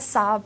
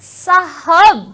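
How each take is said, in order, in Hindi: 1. शब्द सादगी से कहा गया है, बिना अतिरिक्त ज़ोर के। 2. शब्द अतिरिक्त ज़ोर के साथ कहा गया है।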